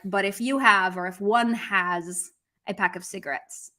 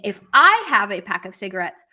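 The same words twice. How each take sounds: First: "you" and "one" picked out, at an ordinary level; stress on you, one. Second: "I" punched louder than the rest; stress on I. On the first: Teacher offering the people-in-general reading, stress on "you" and "one". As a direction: set off "you", then "one", as the general subject. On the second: Teacher asking whether he means himself, stress on "I". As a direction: lean hard on "I", then let the line run on. Contrasts two readings of the subject. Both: Shown as a demonstration.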